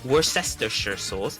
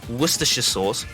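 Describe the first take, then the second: First: Worcestershire is said with an American pronunciation. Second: Worcestershire is said with the local pronunciation. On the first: The speaker calls it wrong. "not Worcestershire sauce" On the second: The speaker calls it right. "it's Worcestershire sauce"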